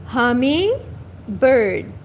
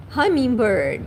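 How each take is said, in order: First: "Hummingbird" stretched very slowly, HUM-ing-bird; drawn-out careful English; slow model word. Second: Said in the usual way. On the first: Shown as a demonstration. Teacher says the English word very slowly for the class.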